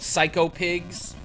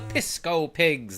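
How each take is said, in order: First: The first word sounds like 'psycho'. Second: The first word sounds like 'pisco'. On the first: This is the actual name of the enemies. The speaker calls it right. "the pigs in this game are called Psycho Pigs" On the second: This is a childhood mispronunciation of the name. The speaker calls it wrong. "That's how my brother and I pronounced it when we were very young"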